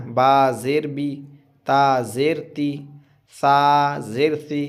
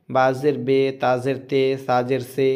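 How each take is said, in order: First: बा ज़ेर बी with a long clear ी, slowly; ती and सी said as a full long ee sound; maroof long i. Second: बा ज़ेर बे with the vowel turned into ay, not ee; ते and से said as a mid e sound; majhool e sound. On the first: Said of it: "ये क्या हुआ? मारूफ हुआ।". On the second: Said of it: "ये क्या है? मजहूल है।". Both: Shown as a demonstration.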